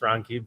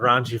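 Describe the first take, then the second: First: The name is said with a 'k' sound. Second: The name is said with a 'ch' sound. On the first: This is the name's real pronunciation. The speaker calls it right. "so it's it's Ronky" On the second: Others always mispronounced the name. The speaker calls it wrong. "I was raunchy forever"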